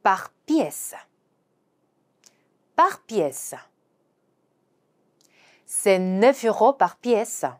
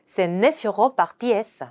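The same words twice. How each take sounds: First: Very slow French, "neuf" stressed; slow teacher read; slow demo pronunciation. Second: Very slow, "neuf" stressed; careful slow French; slow repeat. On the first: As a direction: model each word slowly. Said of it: "개당이라는 표현은요". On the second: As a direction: say it again slowly for class. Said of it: "한 번 더". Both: Shown as a demonstration.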